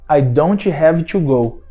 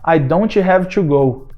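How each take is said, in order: No difference in how they are said.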